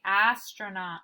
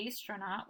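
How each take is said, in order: First: "astronaut" with short A as in cat; correct pronunciation. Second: "astronaut" with first vowel as in ace; wrong pronunciation. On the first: Teacher showing students what we say, correct short-A pronunciation. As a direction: say "astronaut" as ASS-tro-naut, first syllable stressed. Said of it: "we say astronaut". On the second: Teacher showing students what we don't say, wrong long-A pronunciation. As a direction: say "astronaut" as AYS-tro-naut, softly. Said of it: "But we don't say". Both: Shown as a demonstration.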